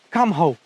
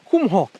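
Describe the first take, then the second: First: The name is said with an American pronunciation. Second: The name is said with a plain Romanian reading.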